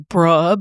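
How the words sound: It is said in a disagreeing tone. The speaker disagrees. "Disagreement, also bruh, but with a different inflection"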